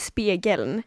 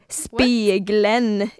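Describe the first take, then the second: First: The word is said in the standard way. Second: The word is said in an odd, marked way. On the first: "istället för spegeln" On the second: "riktigt riktigt fuckade saker som spegeln"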